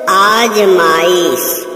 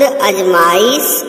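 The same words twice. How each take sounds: First: आजमाइश, slow, long आ, falling end; correct pronunciation. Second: अजमाइश, short first अ, rising end; wrong pronunciation. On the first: Teacher showing students the correction, long slow आ in आजमाइश. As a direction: stretch the opening आ of आजमाइश. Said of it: "शुद्ध". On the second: Teacher showing students the error, short अ in अजमाइश. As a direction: open अजमाइश on a brief अ. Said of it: "अशुद्ध". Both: Shown as a demonstration.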